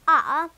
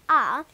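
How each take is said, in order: First: The letter is said British-style, as open ah. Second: The letter is said British-style, as open ah.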